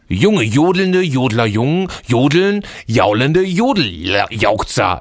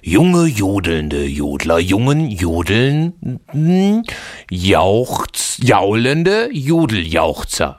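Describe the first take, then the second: First: It is said a bit faster. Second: It is said very slowly.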